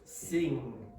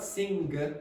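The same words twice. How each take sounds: First: The word ends with a smooth ng sound. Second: The word ends with a hard stop after ng. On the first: The speaker calls it right. "it's sing" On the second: The speaker calls it wrong. "This is not sing"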